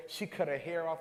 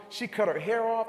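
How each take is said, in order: First: Said in the usual way. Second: Louder, higher, punching cut; the retelling lands louder on cut, incredulous; emphatic repeat. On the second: Retold or imitated. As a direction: hit it hard the second time, stressing cut.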